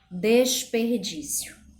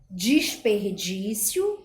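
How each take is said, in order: First: The first syllable has an 'e' vowel. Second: The first syllable has an 'i' vowel. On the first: The speaker calls it right. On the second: The speaker calls it wrong.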